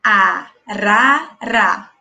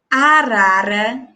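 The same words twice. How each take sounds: First: "arara" said very slowly, syllables pulled apart; teacher stretching "arara" so kids count syllables. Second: Said in the usual way. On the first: Shown as a demonstration. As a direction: spell out "arara" aloud in slow beats. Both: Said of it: "Olha só".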